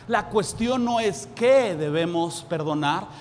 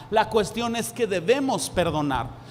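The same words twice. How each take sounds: First: "La cuestión no es que" stressed on "que", rising; plain reading of "no es que debemos perdonar" with a rise on "que"; the wrong framing, "que" lifted; wrong version. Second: "la cuestión" led by a stressed "la", falling; firm "la cuestión es que debemos perdonar" with a falling close; the right framing, settled and falling; corrected version. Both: Shown as a demonstration.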